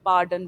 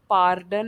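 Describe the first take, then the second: First: पार्डन with silent r, falling; पार्डन as paa-dun, no r; right pronunciation. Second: पार्डन with a rolled r, pitch rising; पार्डन said with the r sounded; wrong pronunciation. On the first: Teacher giving students the correct पार्डन, r silent. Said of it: "बोलना है". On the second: Teacher showing students the wrong पार्डन, r rolled. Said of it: "नहीं बोलना है". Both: Shown as a demonstration.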